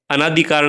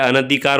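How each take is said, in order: First: अनाधिकार with a long आ after न, read as the wrong form; wrong form shown. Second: अनधिकार with a short अ after न, read as the correct form; correct form shown. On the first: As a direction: say अनाधिकार as a-NAA-dhikaar, stretching the आ. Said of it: "अनाधिकार नहीं होता है". (गलत रूप: अनाधिकार, न के बाद लंबा आ) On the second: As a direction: say अनधिकार as an-a-dhikaar, keeping the न short. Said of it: "अनधिकार होता है". (सही रूप: अनधिकार, न के बाद छोटा अ) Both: Shown as a demonstration.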